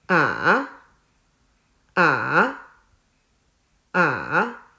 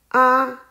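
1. 音调先降到低，再升高。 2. 音调保持高而平。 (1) "第三声也叫做上声，声音是先向下，再向上" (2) "第一声是平的，读作啊"

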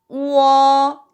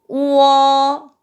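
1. 1성으로 말해요. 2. 1성으로 말해요.

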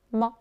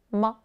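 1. 가볍고 짧게, 거의 힘을 주지 않아요. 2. 가볍고 짧게, 거의 힘을 주지 않아요.

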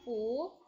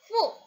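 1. Suku kata ini diucapkan dengan nada naik. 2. Suku kata ini diucapkan dengan nada turun. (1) "Nada kedua bacanya pu" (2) "Nada keempat"

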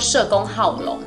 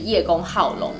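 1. 第一个字读 she。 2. 第一个字读 ye。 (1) "在我们这里还是念社" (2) "如果在中国大陆已经变成是叶公好龙了"

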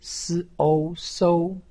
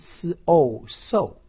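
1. 音高保持高而平。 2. 音高从高急速降到低。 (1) "一声" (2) "四声"

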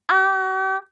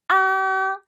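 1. 높고 평평하게 유지돼요. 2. 높고 평평하게 유지돼요.

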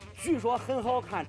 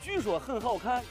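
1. 这段话是用四川话口音说的。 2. 这段话是用陕西话口音说的。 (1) "四川话" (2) "陕西话"

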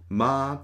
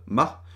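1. Die Silbe wird lang auf einer Tonhöhe gehalten. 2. Die Silbe wird kurz und abgehackt gesprochen. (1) "den sehr langen Ton" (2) "das kurze Ma"

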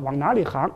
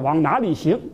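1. “行”读作“háng”。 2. “行”读作“xíng”。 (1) "他那叫往哪里行" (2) "我们叫往哪里行"

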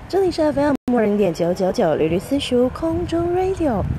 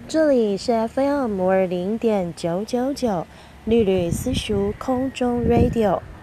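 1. 语速快。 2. 语速慢。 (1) "我们现在快速" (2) "第一种速度，慢慢"

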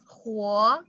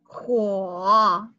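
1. Die Tonhöhe steigt über die Silbe. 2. Die Tonhöhe sinkt tief und steigt dann wieder. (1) "do you want to try to pronounce this as the second tone?" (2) "The third tone"

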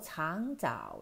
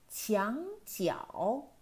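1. 这些音节发音时没有 i 介音。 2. 这些音节发音时有清晰的 i 介音。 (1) "有冇同我读咗橙枣呢？" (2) "咁就又系个e 音出啦啊！"

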